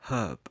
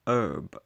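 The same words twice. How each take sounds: First: It is said in a British accent, with H. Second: It is said in an American accent, without H.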